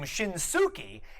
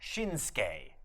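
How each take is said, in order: First: The middle u vowel is clearly voiced. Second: The middle u vowel is nearly silent. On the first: The speaker calls it wrong. "why don't they pronounce Nakamura's first name Shinsuke?" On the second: The speaker calls it right. "that U also gets suppressed in the pronunciation. It comes out Shinsuke"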